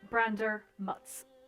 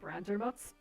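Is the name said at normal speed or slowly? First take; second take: slowly; normal. First: The name is said slowly. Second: The name is said at normal speed.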